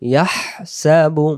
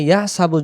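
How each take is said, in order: First: The breathy throat h sound is clearly voiced. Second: The breathy throat h sound is left out. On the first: The speaker calls it right. "হা অক্ষর সহ আদায় করতে হলে আমাদেরকে এইভাবেই পড়তে হবে" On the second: The speaker calls it wrong. "এই হা অক্ষরটা কিন্তু বাদ যাবে"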